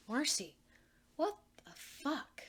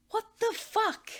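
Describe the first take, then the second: First: Disbelieving. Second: Higher, louder, slow exasperated; exasperated repeat. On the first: Anne stunned, disbelieving outburst. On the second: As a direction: spell it out louder, fed up. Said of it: "Anne repeats". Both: Acted.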